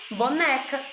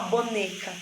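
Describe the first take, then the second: First: The middle e vowel is open. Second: The middle e vowel is closed. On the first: The speaker calls it right. "você fala boneca. E aí você dá um som aberto aí para a letrinha E" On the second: The speaker calls it wrong. "você não fala boneca"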